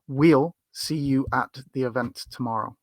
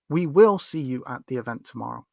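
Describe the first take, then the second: First: 'We will' is contracted to one syllable, like 'wheel'. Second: 'We will' is said as two full words. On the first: "it's important that you learn the the sound of wheel" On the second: "if you've only learned we will"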